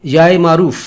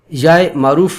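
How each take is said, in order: Both takes have the same delivery.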